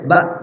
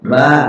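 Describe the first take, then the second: First: The vowel is cut short, not held. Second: The vowel is held for about two beats. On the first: "berbaris pendek cukup dibaca ba" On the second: "Udah dua ketukan"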